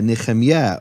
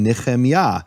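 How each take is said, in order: First: "Nehemiah" altered to ne-khem-YEH; ending in YEH. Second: "Nehemiah" said Hebrew-style as ne-khem-YAH; ending in YAH. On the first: Posing the objection to the name, "Nehemiah" ending in yeh. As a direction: swap the final "yah" of "Nehemiah" for "yeh". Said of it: "Why isn't it Eliyeh". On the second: Giving own name as an example, "Nehemiah" ending in yah. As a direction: end "Nehemiah" on an open "yah". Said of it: "names that end in Yah". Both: Shown as a demonstration.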